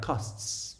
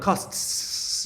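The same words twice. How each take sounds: First: The final ts sound is soft and subtle. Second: The final ts sound is heavy and exaggerated. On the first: "it becomes quite subtle. It's like costs. It's a very soft sound" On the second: "in the beginning it's gonna sound like costs. It's gonna sound like whoa"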